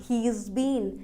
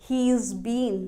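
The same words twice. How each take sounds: No difference in how they are said.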